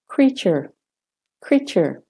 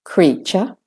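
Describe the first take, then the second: First: "creature" with American r ending, falling. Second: "creature" ending in r-less "chuh", British-Australian; British-Australian "creature", rising on a schwa. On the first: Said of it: "British and Australian first". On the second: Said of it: "doing British and Australian first". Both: Shown as a demonstration.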